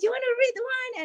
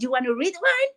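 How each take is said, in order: First: High, fast, eager offer of a book; all excited. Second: Excited offer. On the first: Mom eagerly offering her son a book, excited and fast. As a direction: pitch it like you can't wait for him to say yes. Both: Retold or imitated. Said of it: "And I was all excited".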